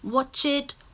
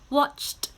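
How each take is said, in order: First: The word is said as two syllables. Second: The word is said as one syllable. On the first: The speaker calls it wrong. "We do not say" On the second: The speaker calls it right. "these are now still one syllable"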